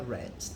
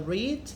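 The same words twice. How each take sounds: First: It is said in its past-tense pronunciation. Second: It is said in its present-tense pronunciation. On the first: It is the past participle. "no particípio passado ou particípio também é read" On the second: The action happens now. "no presente é read"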